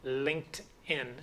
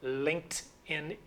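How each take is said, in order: First: Linked ends in a t sound, one syllable. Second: The same.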